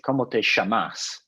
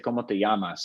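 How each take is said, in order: First: The double L has the Argentine sound. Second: The double L has the non-Argentine sound. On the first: "they say" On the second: "they don't say in Argentina, they don't say"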